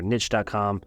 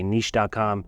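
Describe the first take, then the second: First: Niche is said in a plain everyday way. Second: Niche is said in a fancy, refined way. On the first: "However you want to say it" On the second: "If you want to be fancy"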